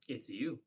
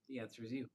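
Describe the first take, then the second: First: It is said without calm confidence. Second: It is said with calm confidence.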